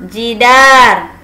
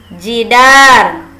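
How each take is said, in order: The two takes are said the same way.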